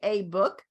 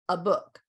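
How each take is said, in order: First: The article has a full 'ay' vowel. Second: The article has a weak 'uh' schwa vowel. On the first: The speaker calls it wrong. "we don't usually say a book" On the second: The speaker calls it right. "we say a, a book, because it's an unstressed syllable"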